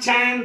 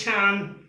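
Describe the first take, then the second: First: "Chan" with a hard, unaspirated च; wrong pronunciation. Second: "Chan" with a lightly breathed छ; correct pronunciation. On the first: Teacher shows the wrong way, mispronounced word. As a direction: say "Chan" with no breath after ch. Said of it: "It's not Chan". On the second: Teacher models the right word, correct pronunciation. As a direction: say "Chan" with a puff after ch. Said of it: "the word is Chan". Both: Shown as a demonstration.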